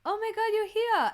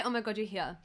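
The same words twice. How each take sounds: First: Much higher, thrilled recognition; excited greeting. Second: Said in the usual way. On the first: Retold or imitated. Stel recognising her at the photo op, excited. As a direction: gush it like spotting an old friend. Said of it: "and he goes". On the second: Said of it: "he didn't say".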